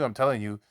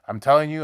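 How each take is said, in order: First: Said in the usual way. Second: Higher and louder, pressing the warning home; emphatic warning. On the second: Real, not acted. Preacher warning his listeners, loud and insistent.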